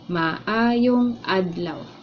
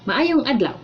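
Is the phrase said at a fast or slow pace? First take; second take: slow; fast. First: The phrase is said slowly and carefully. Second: The phrase is said at normal speed.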